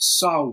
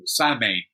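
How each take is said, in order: First: The word is pronounced the Irish way. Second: The word is pronounced the English way. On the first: "they pronounce it Samhain" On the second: "In English, we'd say you know, Samhain"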